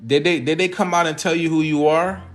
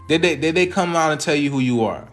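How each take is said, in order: Both takes have the same delivery.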